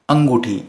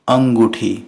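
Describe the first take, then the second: First: "अंगूठी" with unaspirated ट in place of ठ; błędna wymowa. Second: "अंगूठी" with aspirated ठ; poprawna wymowa. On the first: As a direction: read "अंगूठी" as misspelt, angooti. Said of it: "अब ये कोई वर्ड होता नहीं". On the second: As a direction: say "अंगूठी" clearly as angoo-thee. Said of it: "सही word क्या है?". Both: Shown as a demonstration.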